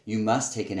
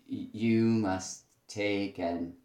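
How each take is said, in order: First: The stress falls on the word must. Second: The stress falls on the word you. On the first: The speaker calls it right. "must would be the thing that you probably want to have a stress on" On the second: The speaker calls it wrong. "be careful about a stress on the word like you"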